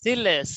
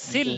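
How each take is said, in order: First: The word ends with an added vowel. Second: The word ends on the l consonant. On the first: The speaker calls it wrong. "না সিলে" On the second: The speaker calls it right. "সিলে হবে সিল"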